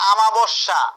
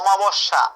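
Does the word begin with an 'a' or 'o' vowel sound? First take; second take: a; o. First: The first vowel sounds like an open 'a'. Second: The first vowel sounds like a rounded 'o'. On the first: The speaker calls it wrong. "অনেকে উচ্চারণ করে আমাবস্যা" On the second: The speaker calls it right. "এটা হচ্ছে অমাবস্যা"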